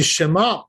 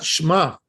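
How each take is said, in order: First: "Shema" with a clear eh under the shin; "Shema" saying "She" fully; with eh sound. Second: "Shema" said as "Shma" with no eh; "Shema" clipped to one syllable start; dropped vowel. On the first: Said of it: "pronouncing the eh". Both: Shown as a demonstration.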